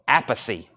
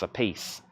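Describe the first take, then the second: First: The name is said the Italian way. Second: The name sounds like the English 'a piece'. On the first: The speaker calls it right. "the correct Italian pronunciation is [name]" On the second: The speaker calls it wrong. "The other is a piece"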